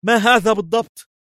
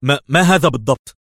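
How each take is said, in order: First: Very high-pitched, startled exclamation; alarmed cry. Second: Hesitant, higher-pitched stammer; wary question. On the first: Levi sprayed in the face, crying out. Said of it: "وسعل ليفي وهو يهتف". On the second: Levi eyeing the mysterious bag, warily. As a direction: stumble on the first word, on guard. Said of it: "في حذر وهو يقول". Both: A narrator's reading.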